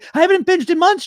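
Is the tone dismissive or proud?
dismissive. It sounds rushed and dismissive, brushing past it. The achievement is treated as unimportant. The speaker calls it wrong. "You're saying it like that"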